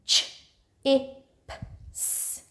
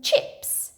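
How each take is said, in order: First: "Ch, I, P, S" as four separate sounds; sounded out. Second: Said in the usual way. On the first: Shown as a demonstration. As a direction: segment "Ch, I, P, S" with a pause after each sound. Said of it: "Can you do your sound buttons?". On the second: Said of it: "Can you say the word?".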